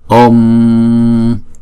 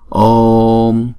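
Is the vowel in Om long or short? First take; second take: short; long. First: The O vowel is short and clipped. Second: The O vowel is drawn out long. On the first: The speaker calls it wrong. "chứ chúng ta không đọc là Om" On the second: The speaker calls it right. "Chúng ta kéo dài chữ O trước rồi mới đóng chữ O lại"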